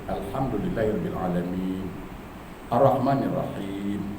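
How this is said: There is a pause after 'alamin'. The speaker calls it right. "ada spasi harakat di situ"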